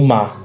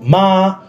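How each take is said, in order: First: The syllable is short and light, without contour. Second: The pitch stays high and level. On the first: "que é um tom neutro" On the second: "Então existe o ma"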